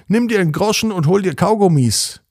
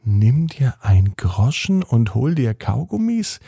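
First: Raised-pitch call of Herr Widinski; a lightly voiced grumpy neighbour; neighbour's call. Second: Put-on a boy puzzling over odd words; puzzled repeat. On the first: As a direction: call it across the street, higher. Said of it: "Neulich hat er gesagt". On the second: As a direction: repeat "Kaugummis" as a baffled question.

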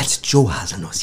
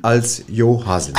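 First: Lower-pitched correction, "Joe" starting dzh; "Joe" said the Colombian way; correcting pronunciation. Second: "Jo" with a German y sound; "Jo" with y instead of j, unhurried; mispronounced title. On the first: Shown as a demonstration. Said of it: "wird es wie Joe ausgesprochen". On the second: Real, not acted. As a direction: say "Jo Haselnuss" with Jo starting like ja.

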